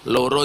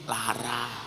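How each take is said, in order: First: It is said with an o vowel, Purworejo style. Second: It is said with an a vowel, Kebumen style.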